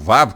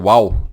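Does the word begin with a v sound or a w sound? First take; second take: v; w. First: The word begins with a v sound. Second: The word begins with a w sound. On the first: "pronunciam Vav com V" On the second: "pronuncia uau"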